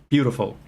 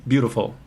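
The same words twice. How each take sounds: No difference in how they are said.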